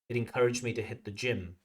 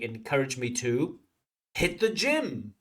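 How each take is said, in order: First: The phrase flows evenly with the surrounding speech. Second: The phrase stands out sharply from surrounding speech. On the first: The speaker calls it right. "where it should be like" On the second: The speaker calls it wrong. "Candidate sounds like"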